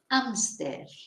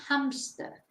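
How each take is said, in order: First: The word begins with no H sound. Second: The word begins with an audible H sound. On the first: "en español no pronunciamos la H" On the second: "which is hamster"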